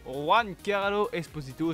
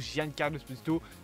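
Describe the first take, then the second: First: The first name starts with a 'w' sound. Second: The first name starts with a 'dj' sound.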